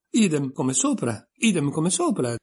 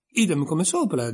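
First: A mild shouted chant, rising higher. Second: Said in the usual way. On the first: Acted. Twin shouting back at Alice, mild hammed-up yell. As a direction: bellow it like a taunt, lightly. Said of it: "gridò Tweedledee". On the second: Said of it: "disse Tweedledum".

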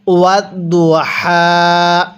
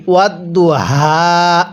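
First: ওয়াত দু হা slow, হা from the throat; correct recitation. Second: ওয়াত দু হা with হা voiced from the mouth; wrong way. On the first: Teacher shows students the right হা, slowly. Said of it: "কিভাবে পড়ব?". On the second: Teacher shows students the common mistake. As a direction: say the হা as a plain mouth sound. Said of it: "এরকমভাবে পড়ি". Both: Shown as a demonstration.

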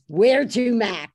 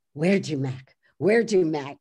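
First: Loud, lightly voiced cabbie call; brusque cabbie greeting, lightly imitated; cab driver. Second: Lower, lightly voiced cabbie imitation; a hint of gruff Oscar in rehearsal; practicing cabbie's voice. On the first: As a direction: call it out like a cigar-chewing cabbie. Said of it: "And the cab driver says". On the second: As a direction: repeat it to yourself, trying out the voice. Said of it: "Carol Spinney's going".

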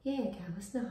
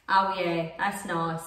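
First: Hushed imitation of a nan; really soft voice. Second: Put-on lower, old London voice; old London accent. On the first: Correcting her impression of partner's nan, soft. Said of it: "She's got a really soft voice". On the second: Demonstrating partner's nan to him, old London accent. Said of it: "like an old London accent". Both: Shown as a demonstration.

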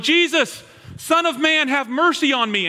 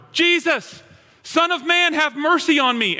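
First: High, loud plea to be heard; blind man calling out. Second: High, loud cry to Jesus; yelling louder. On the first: Blind man on the road calls to passing Jesus, loud plea. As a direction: cry out from the roadside for mercy. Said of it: "starts going". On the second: Blind man keeps shouting over the disciples, louder cry. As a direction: push the plea out even louder. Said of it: "starts yelling even louder". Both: Retold or imitated.

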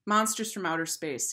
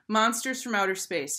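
First: Said in the usual way. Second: Put-on higher, more emphatic boy's reply; mildly insistent declaration; firm repeat. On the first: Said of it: "he replied". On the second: A narrator's reading. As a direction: state it insistently, pitched up. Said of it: "he repeated".

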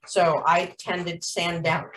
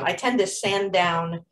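First: Talking through hiccups; words interrupted by hiccups. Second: Said in the usual way. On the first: Real, not acted. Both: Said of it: "excuse me, I got the hiccups".

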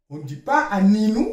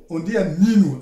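First: Quick "Aninu" run together as "pas-ninu"; wrong pronunciation. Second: "Aninu" said carefully with a falling end; correct pronunciation. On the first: Teacher contrasting wrong and right pronunciation. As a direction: toss off the wrong "Aninu" fast. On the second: Teacher giving the proper way to say the word. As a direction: settle firmly on the right "Aninu". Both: Shown as a demonstration.

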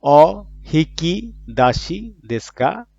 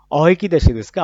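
First: Slow, careful Japanese phrase; drawn-out teacher's model of "অ হিকি দাসি দেশকা"; Japanese phrase modelled. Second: Normal-speed repeat of "অ হিকি দাসি দেশকা"; quick, loud repeat of "অ হিকি দাসি দেশকা"; Japanese phrase at normal pace. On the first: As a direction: spell out "অ হিকি দাসি দেশকা" slowly, syllable by syllable. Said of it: "Japanese phrase model reading". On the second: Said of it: "repeat of model phrase". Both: Shown as a demonstration.

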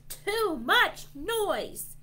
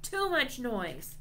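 First: High, slow, punched-out holler; grumpy holler. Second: Milder grumpy holler, pitched up; half-hearted grumpy complaint. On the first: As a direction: holler each word separately, grumpily. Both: A narrator's reading. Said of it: "One grumpy dragon hollers".

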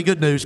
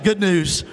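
First: Said in the usual way. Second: Rallying shout. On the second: Shown as a demonstration. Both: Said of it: "Come on, shout it".

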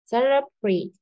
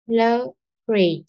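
First: Said in the usual way. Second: "Celebrate" slow, split as ce-le-brate with falling end; slow teaching model of "Celebrate", pauses between syllables. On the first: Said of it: "rất là mạnh đúng không". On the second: Shown as a demonstration. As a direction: break "Celebrate" into separate syllables, lowering the last. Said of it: "âm số hai cô đọc là lơ".

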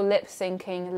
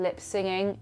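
First: Said in the usual way. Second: "singing" said with S-I-NG in place of "syncing"; mistaken wording. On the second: Shown as a demonstration. Quoting people who misname lip syncing, "singing" without the K. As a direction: say "singing" softly, with no K sound. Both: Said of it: "when people call lip syncing lip singing".

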